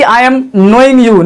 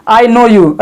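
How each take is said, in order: First: Very slow, each word apart; slow wrong example. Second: Said in the usual way. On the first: Shown as a demonstration. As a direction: lay out the wrong sentence slowly. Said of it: "तो ऐसा नहीं कि". (धीरे-धीरे बोला गया गलत वाक्य) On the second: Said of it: "सही होगा".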